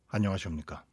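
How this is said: It is said deep, pushed from the belly.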